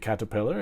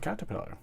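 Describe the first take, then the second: First: It is said in an American accent. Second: It is said in a British accent.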